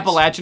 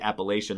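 First: The word is said in a southern style. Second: The word is said in a northern style. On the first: "Appalachian is a southern more style to say" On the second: "most northerners say Appalachian"

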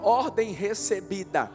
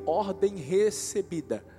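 First: It is said louder and more forcefully. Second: It is said at normal loudness.

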